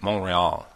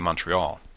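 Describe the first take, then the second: First: Montreal is said with a French-Canadian pronunciation. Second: Montreal is said with an American pronunciation. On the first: The speaker calls it right. "how to pronounce the city name in a French-Canadian way... it's basically like Montreal" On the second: The speaker calls it wrong. "we Americans would normally say Montreal, and I knew that that was wrong"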